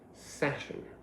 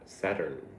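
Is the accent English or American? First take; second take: English; American. First: It is said with an English accent. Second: It is said with an American accent.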